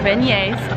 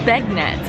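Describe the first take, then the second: First: It sounds French, like 'ben-yays'. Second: It sounds like English 'bag-nets'. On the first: It is the proper French pronunciation. The speaker calls it right. "no, they're beignets, it's French" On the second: It is read literally as written. The speaker calls it wrong. "she read them literally"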